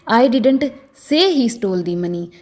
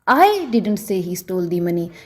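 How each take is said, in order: First: The stress is on the word say. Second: The stress is on the word I. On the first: It may have been conveyed some other way, like a gesture. "अगर मैं से पर जोर डालकर बोलूं" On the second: Someone else may have said it. "अगर मैं आई पर जोर देकर बोलूं"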